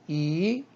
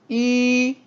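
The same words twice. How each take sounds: First: The pitch rises from mid to high. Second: The pitch stays high and level. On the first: "이성" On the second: "일성"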